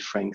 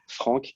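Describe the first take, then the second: First: The name is said with an English pronunciation. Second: The name is said with a French pronunciation. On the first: This is the everyday form people use. "everyone calls me Frank" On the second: This is the official form of the name. "the official way"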